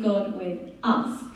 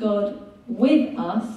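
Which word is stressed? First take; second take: us; with. First: The word us carries the main stress. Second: The word with carries the main stress. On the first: God is present for these very people. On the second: God is present alongside people.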